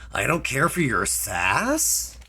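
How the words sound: The voice rises at the end like a question.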